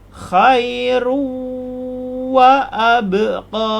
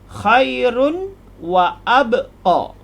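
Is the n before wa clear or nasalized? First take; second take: nasalized; clear. First: The n merges into wa with a nasal hum. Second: The n is pronounced clearly before wa. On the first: "dibaca dengan tajwid menjadi" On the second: "asal dia bunyi asal tanpa idgham"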